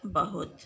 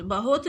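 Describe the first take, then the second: First: बहुत with short "u", "bahut"; correct pronunciation. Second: बहुत as "bahot", with "o"; wrong pronunciation. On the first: Teacher giving pupils the right form, बहुत with short "u". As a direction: end बहुत on a short "hut". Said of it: "बल्कि क्या बोलते हैं". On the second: Teacher showing pupils the mistake, बहुत said "bahot". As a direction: say बहुत with an "o" vowel. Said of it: "बहुत नहीं बोला जाता". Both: Shown as a demonstration.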